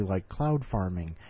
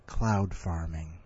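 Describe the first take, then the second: First: Said in the usual way. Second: Low, slow and pondering; thoughtful. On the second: Shown as a demonstration. Host shows his story's ending, low, slow and musing. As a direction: savour it like a deep thought. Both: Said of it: "in a very thoughtful way".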